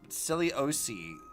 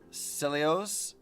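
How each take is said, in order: First: It ends with an extra vowel after the s. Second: It ends on the s with no extra vowel. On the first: The speaker calls it wrong. "why are they adding the extra?" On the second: The speaker calls it right. "Celios seems like I pronounce that"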